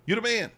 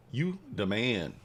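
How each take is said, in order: First: Sharply higher and louder cheer for a new subscriber; a quick excited cheer to the chat; hype shout. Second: Said in the usual way. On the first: Acted. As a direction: shout it up high like a hype man.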